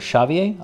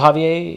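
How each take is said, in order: First: The name begins with an sh sound. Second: The name begins with an h sound. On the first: "pronounce the X as sh" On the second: "I would stick with the H sound"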